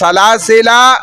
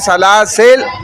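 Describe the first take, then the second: First: The word ends with a final 'a' vowel. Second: The word ends without a final 'a' vowel.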